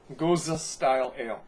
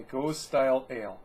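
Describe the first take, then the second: First: "Gose" corrected to "GOH-zuh"; "Gose" in two syllables, stressed on the first. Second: "Gose" as one syllable, "gohz"; "Gose" run straight into "style", no middle vowel. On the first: Shown as a demonstration. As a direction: sound the final E of "Gose" as "uh". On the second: Real, not acted. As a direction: read "Gose" with a silent final E. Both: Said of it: "I've been told that it's pronounced".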